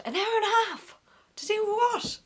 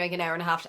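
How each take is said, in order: First: High, baffled disbelief; can't believe it would take that long; incredulous. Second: Said in the usual way. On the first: Real, not acted. Echoing friends' claim, high and incredulous. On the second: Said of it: "all my friends were like".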